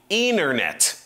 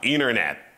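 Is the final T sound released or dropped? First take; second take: released; dropped. First: The final T is clearly pronounced. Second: The final T is dropped. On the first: The speaker calls it wrong. "не internet" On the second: The speaker calls it right. "они очень часто не произносят Ти в конце слов"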